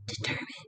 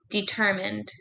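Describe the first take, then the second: First: It is said in a soft whisper. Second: It is said in a normal speaking voice.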